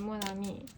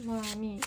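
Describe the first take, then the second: First: Mon ami mumbled softer, unsure of the French. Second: Mon ami said the French way; French phrase. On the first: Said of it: "I'm not pronouncing that correctly". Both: Shown as a demonstration.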